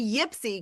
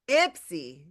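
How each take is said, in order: First: The word begins with a 'y' sound. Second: The word begins with a plain vowel sound. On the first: The speaker calls it wrong. "Don't go there and say Yipsy because they're going to be like, he's an outsider" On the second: The speaker calls it right. "No yip. Ipsy"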